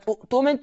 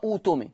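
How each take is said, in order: First: أؤتمن with a glottal catch after the first u; hamza sounded. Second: أوتمن with long uu replacing the glottal stop; hamza turned to waw. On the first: Teacher showing the written word, أؤتمن with hamza. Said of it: "تقرأ أوتمن". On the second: Teacher demonstrating the reading rule, أوتمن with long uu. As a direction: glide through أوتمن as uu-tumin. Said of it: "إذا بدأ بها مضمومة". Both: Shown as a demonstration.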